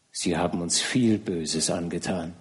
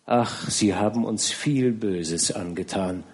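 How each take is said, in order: First: Softer, lower broken repeat; tragic heroine sorrow. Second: Slow, soft grieving reproach; tragic heroine sorrow. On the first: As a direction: let the repeat sink lower. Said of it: "sagte zweimal". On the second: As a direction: say it slowly through grief. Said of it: "schluchzte sie auf". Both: A narrator's reading.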